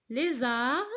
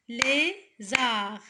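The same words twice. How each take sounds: First: Said in the usual way. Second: "Lézard" split as LÉ, pause, ZARD; syllable by syllable. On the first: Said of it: "avant de frapper les syllabes". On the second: Shown as a demonstration. Teacher counting syllables for pupils, "Lézard" chopped in two. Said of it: "deux syllabes".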